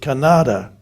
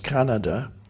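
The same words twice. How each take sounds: First: The word is pronounced in an odd way. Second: The word is pronounced the usual way. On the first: The speaker calls it wrong. "she pronounced it Canada" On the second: The speaker calls it right. "The word was Canada"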